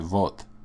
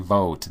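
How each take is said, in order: First: The V is said the Russian way. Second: The V is said the English way. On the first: The speaker calls it right. "they say vot. See how it, it pronounces a slightly, slightly different V?" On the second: The speaker calls it wrong. "they don't say vote"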